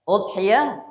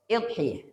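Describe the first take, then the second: First: The word begins with a u vowel. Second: The word begins with an i vowel. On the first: "Hamzahnya di dhammah" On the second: "Hamzahnya di di kasrah"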